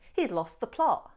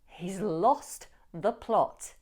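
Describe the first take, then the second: First: It is said fast with the T sounds dropped. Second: It is said emphatically with clear T sounds. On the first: "you may or may not decide to drop the T in both lost and plot ... That would usually happen if you're saying it fast" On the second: "There I'm being more emphatic"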